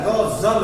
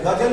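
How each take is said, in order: First: गजल said with a z, as ग़ज़ल; teacher models गजल as ghazal with z; correct Urdu pronunciation. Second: गजल said with a plain g and j, as gajal; teacher shows गजल as gajal with a hard j; wrong pronunciation. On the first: Teacher models गजल for students as ग़ज़ल with z. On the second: Teacher shows students the wrong गजल, gajal. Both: Shown as a demonstration. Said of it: "गजल नहीं होता है".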